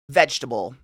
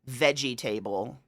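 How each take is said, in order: First: The word is said the usual, everyday way. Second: The word is said the way it is spelled. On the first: "Why do we pronounce it that way?" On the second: "Look at it"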